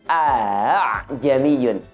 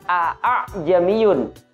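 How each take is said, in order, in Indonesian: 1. Hamzah kedua dilunakkan menjadi bunyi a. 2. Hamzah kedua dibaca penuh. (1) "kita baca dengan bunyi a'ajamiyun" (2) "kita menemukan kata a'ajamiyun di ayat ini"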